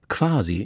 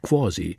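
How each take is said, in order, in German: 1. Der a-Laut ist klar und offen. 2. Der a-Laut ist zum o hin verdunkelt. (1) "So sagt Aiwanger quasi" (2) "nicht quasi"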